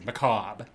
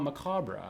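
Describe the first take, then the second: First: It is said the American way. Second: It is said in a non-American way. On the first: This is how Americans say it. "the American pronunciation is macabre" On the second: This is the pronunciation the speaker preferred. "I wanted to call it macabre"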